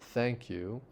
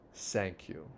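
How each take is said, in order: First: The first word begins with a th sound. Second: The first word begins with an s sound. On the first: "instead of saying thank you" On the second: "they would say s, s, s"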